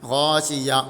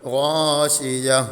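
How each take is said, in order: First: It is cut off before the final h. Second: It ends with a soft h sound. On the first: The speaker calls it wrong. "ഇവിടെ യാ... അതിൽ നിർത്തി. അങ്ങനെ നിർത്താനും പാടില്ല" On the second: The speaker calls it right. "യ ഹാഇന് സുക്കൂൻ ചെയ്തുകൊണ്ട്"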